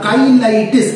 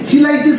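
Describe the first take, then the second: First: The word begins with a 'k' sound. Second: The word begins with a 'ch' sound. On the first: The speaker calls it right. "উচ্চারণটা হবে কাইলাইটিস" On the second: The speaker calls it wrong. "চিলাইটিস ফিলাইটিস কিন্তু বলতে যাও না"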